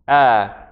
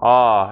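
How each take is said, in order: First: The vowel is front, as in bat. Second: The vowel is back, as in father. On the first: No emphatic consonant comes before it. "Normally it sounds like a" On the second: An emphatic consonant comes before it. "as in father, no longer a as in bat"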